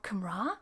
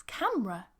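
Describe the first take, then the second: First: Camera as kuh-MRAH, stress on the last syllable; wrong pronunciation. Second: Camera as CAM-ruh, stress up front; correct pronunciation. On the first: Teacher showing how not to say it, camera as kuh-MRAH. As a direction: say camera wrongly with a long, rising RAH. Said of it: "It's not camera". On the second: Teacher correcting the mistake, camera as CAM-ruh. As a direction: say camera in two syllables with a weak ending. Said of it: "It's camera". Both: Shown as a demonstration.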